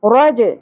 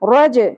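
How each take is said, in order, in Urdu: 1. آخری j قلقلے کے ساتھ ادا ہوتا ہے۔ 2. آخری j قلقلے کے ساتھ ادا ہوتا ہے۔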